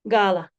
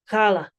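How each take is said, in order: First: The word begins with a plain hard g. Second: The word begins with a gargled throat sound. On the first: The speaker calls it wrong. "or simply gala" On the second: The speaker calls it right. "like a soft G, almost as if you were gargling water"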